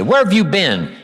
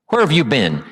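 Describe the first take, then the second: First: Higher, pointed sarcastic question; loaded sarcastic jab. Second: A hint of sarcasm, only lightly marked; muted sarcastic jab; loaded. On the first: Retold or imitated. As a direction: call out the latecomer in front of everyone. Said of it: "Someone walks in late and you say". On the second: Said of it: "that's loaded with "you don't care".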